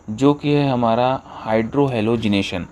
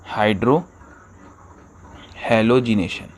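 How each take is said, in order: First: Said in the usual way. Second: hydrohalogenation drawn out slowly, each syllable spelled out; slow careful term. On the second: Shown as a demonstration. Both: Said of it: "teacher repeats term slowly".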